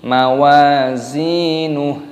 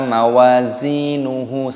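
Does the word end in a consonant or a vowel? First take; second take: consonant; vowel. First: The word ends on a bare consonant. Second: The word ends with an added vowel. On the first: The speaker calls it right. "haknya dimatikan" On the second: The speaker calls it wrong. "bukan dibaca mawazinuhu, salah"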